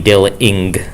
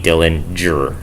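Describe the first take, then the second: First: The middle consonant is a hard g sound. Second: The middle consonant is a j sound. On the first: The speaker calls it wrong. "it can't be" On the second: The speaker calls it right. "That G is pronounced as the J in jam"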